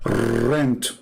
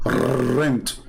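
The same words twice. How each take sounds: First: Rent with a rolled Russian R; Russian accent. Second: Said in the usual way. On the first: Retold or imitated. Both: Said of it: "This is how they say it in Russia".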